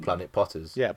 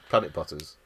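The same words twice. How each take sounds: First: The stress falls on the word Potters. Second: The stress falls on the word Planet. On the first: Potters is the name of a planet. The speaker calls it wrong. "Not Planet Potters" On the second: They are people who pot planets. The speaker calls it right. "it should be Planet Potters"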